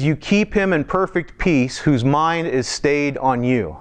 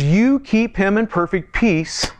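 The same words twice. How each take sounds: First: "keep" leaned on, slow and measured; slow scripture reading. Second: "perfect peace" lifted and slowed; raised scripture reading. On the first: Preacher reading scripture slowly to the congregation. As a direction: read it slowly, weighing each word. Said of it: "It says". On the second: Preacher rereading the verse to stress shalom. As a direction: lift the verse, slow and reverent. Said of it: "shalom, shalom". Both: Shown as a demonstration.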